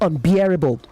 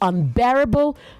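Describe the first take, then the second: First: The middle syllable sounds like beer. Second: The middle syllable sounds like bear. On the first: The speaker calls it wrong. "not unbearable" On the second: The speaker calls it right. "So you say bear, not beer. It is unbearable"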